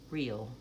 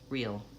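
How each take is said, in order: The two takes are said the same way.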